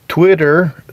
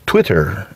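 First: It is said in an American accent. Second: It is said in a British accent.

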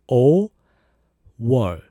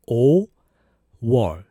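Both takes have the same delivery.

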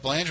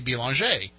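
First: The name is pronounced with an English sound. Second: The name is pronounced with a French sound. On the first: "everybody knows Jeff Belanger in the paranormal" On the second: "but in French it would be Belanger"

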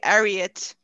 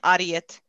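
First: The name is said with an English pronunciation. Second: The name is said with a Swedish pronunciation. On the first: "is how it's pronounced in English" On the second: "in Swedish"

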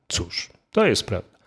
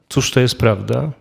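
First: There is a pause after "cóż". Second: It is one question with no pause.

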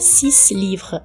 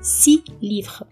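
First: The final S of six is pronounced. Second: The final S of six is silent. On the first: The speaker calls it wrong. "A gente não vai pronunciar o S finalzinho do 6, não é six livre" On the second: The speaker calls it right. "é si livre"

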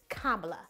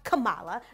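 First: The name starts like 'comma', then 'la'. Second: The name does not start like 'comma'. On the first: The speaker calls it right. "It's comma, like the punctuation mark, and la" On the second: The speaker calls it wrong. "Not Kamala"

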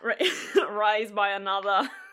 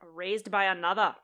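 First: It is said in a put-on Australian accent. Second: It is said in a plain American accent. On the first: "those really great Australian accents" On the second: "Not an Australian accent"

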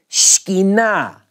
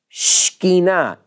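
Both takes have the same delivery.

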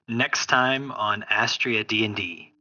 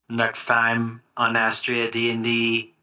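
First: It is said in his natural voice. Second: It is said in M K's character voice.

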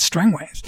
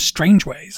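First: The first part sounds like strang, without strange. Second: The first part sounds like the word strange. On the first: The speaker calls it right. "no, it's Strangways" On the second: The speaker calls it wrong. "I've heard an audiobook where they called him Strangeways"

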